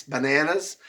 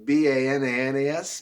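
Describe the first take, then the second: First: Said in the usual way. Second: "B A N A N A S" said letter by letter; spelled out. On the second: Shown as a demonstration. Teacher spelling the word for young students, letter by letter. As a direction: spell "B A N A N A S" one letter at a time. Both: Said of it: "He's been using bananas".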